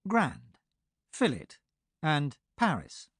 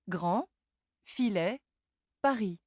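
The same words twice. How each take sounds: First: Grand, fillet, and Paris with every final letter sounded, English style; English endings sounded. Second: Grand, filet, Paris in French, final d, t and s silent; French silent endings. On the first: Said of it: "word endings are usually pronounced". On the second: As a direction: drop the last letter: Grand as grɑ̃, Paris as paʁi. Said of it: "many final letters are not sounded". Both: Shown as a demonstration.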